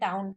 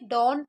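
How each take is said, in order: First: The vowel is a gliding 'ow' sound. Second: The vowel is a long open 'aw' sound. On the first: The speaker calls it wrong. "अक्सर हम इसे गलत भी पढ़ देते हैं" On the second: The speaker calls it right. "इसको डॉन ही पढ़ा जाएगा"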